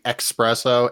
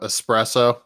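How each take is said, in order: First: The word begins with an 'ex' sound. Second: The word begins with an 'es' sound. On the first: The speaker calls it wrong. "not saying expresso ... like an idiot" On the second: The speaker calls it right. "compliment Steve's pronunciation of espresso"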